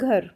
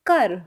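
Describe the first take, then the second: First: The word is said with Hindi pronunciation. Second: The word is said with Punjabi pronunciation. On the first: "Hindi में हम बोलते हैं घर" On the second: "Punjabi में इसको बोलते हैं घर"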